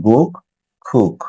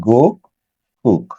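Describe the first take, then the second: The two takes are said the same way.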